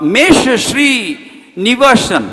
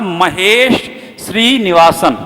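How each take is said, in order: First: The first name is shortened to one syllable, mesh. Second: The first name has two syllables, ma-hesh. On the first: The speaker calls it wrong. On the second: The speaker calls it right.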